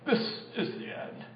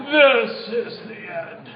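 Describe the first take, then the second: First: Whispered, dying-away doom line; dramatic movie whisper. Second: Slow movie-style doom line. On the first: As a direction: breathe it like the last line of a film. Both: Shown as a demonstration. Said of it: "You gotta say it like that so we can do movie style".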